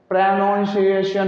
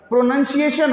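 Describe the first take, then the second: First: प्रोनाउंसिएशन with "nown" in the second syllable; wrong pronunciation. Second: प्रोनंसिएशन with a short "nun" in the second syllable; correct pronunciation. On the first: Teacher to students, the wrong spelling said aloud: mispronounced with "naun". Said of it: "प्रोनंसिएशन होता है". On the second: Teacher correcting students: careful correct pronunciation. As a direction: say प्रोनंसिएशन carefully as "pro-nun-see-ay-shun". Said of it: "प्रोनाउंसिएशन नहीं बेटा". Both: Shown as a demonstration.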